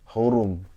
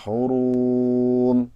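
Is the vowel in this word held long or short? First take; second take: short; long. First: The vowel is kept short. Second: The vowel is held too long. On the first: The speaker calls it right. "harusnya pendek" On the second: The speaker calls it wrong. "Bapak tadi baca hurum"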